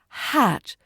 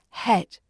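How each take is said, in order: First: The vowel is an open a sound. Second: The vowel is an e sound. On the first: The speaker calls it right. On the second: The speaker calls it wrong. "not het"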